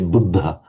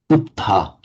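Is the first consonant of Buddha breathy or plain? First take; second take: breathy; plain. First: The first consonant has a breathy voiced release. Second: The first consonant has a plain release. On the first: The speaker calls it right. "The Thais can't say Buddha" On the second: The speaker calls it wrong. "They say Dhamma, Buddha"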